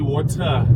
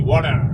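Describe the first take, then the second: First: It is said in a South African accent. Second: It is said in an American accent. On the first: This is how people here say it. "here we say water" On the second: This is how people over there say it. "You guys say water"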